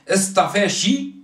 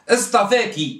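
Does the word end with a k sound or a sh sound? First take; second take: sh sound; k sound. First: The word ends with a sh sound. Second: The word ends with a k sound.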